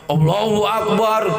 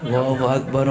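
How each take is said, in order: First: It is called out very loudly. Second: It is said quietly and gently. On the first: It is far too loud for a newborn's ears. The speaker calls it wrong. "ajan sakancang-kancangnya" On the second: It is gentle enough for a newborn's ears. The speaker calls it right. "pelan-pelan, pelan-pelan"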